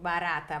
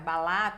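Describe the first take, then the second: First: The middle consonant is a tapped r. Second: The middle consonant is an l sound. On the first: This is the adult form of the word. "o R" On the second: This is how a young child says it. "eles fazem"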